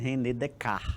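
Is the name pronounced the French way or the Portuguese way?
French. The name is said with a French pronunciation. The speaker calls it right. "na verdade é René Descartes que pronuncia"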